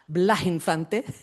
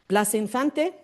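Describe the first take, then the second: First: The s in Blas becomes an h sound. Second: The s in Blas is a clear s sound.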